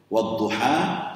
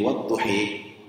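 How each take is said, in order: First: The final vowel is an open 'a' sound. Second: The final vowel is tilted toward an 'e' sound.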